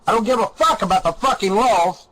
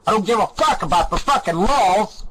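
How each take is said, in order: Both takes have the same delivery.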